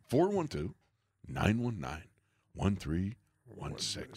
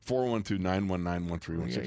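First: It has dramatic pauses between the groups. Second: It is run together without dramatic pauses.

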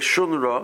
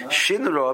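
First: The first vowel is an 'oo' sound. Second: The first vowel is an 'ee' sound. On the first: It signals a good song is coming. "they call it with the shuruk" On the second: It signals a bad change is coming. "if you pronounce it with the chirik"

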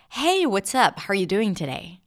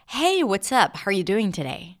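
First: The pitch moves up and down, sounding friendly. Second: The pitch moves up and down, sounding friendly.

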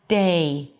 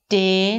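First: The vowel glides from one sound to another. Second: The vowel is one steady, unchanging sound. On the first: The speaker calls it right. "but day" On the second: The speaker calls it wrong. "it's not day, day, not one clean sound"

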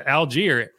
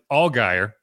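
First: The name sounds like the place Algiers. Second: The name does not sound like Algiers. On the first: The speaker calls it right. "they said Algier" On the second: The speaker calls it wrong. "in my head, I pronounced it Allgaier"

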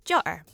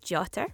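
First: The middle consonant is a glottal stop. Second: The middle consonant is a clear t sound. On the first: "with a glottal stop in the middle" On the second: "with a t in the middle"

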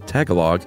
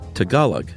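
First: The second syllable has a reduced 'guh' vowel. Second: The second syllable has a full 'gah' vowel. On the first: The speaker calls it wrong. "not G-U-H" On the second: The speaker calls it right. "It's actually Tagalog. ... this is G-A-H"

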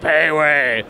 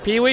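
First: Both vowels of the name sound like 'ay'. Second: Both vowels of the name sound like 'ee'. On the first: The speaker calls it right. "He's like, ah" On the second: The speaker calls it wrong. "I remember mispronouncing his name"

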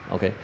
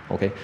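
The two takes are said the same way.

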